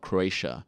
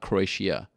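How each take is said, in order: First: The 'i' sound is pronounced lightly and subtly. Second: The 'i' sound is pronounced strongly and clearly. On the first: The speaker calls it right. "Got to be a little more subtle" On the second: The speaker calls it wrong. "you can't pronounce the I that much"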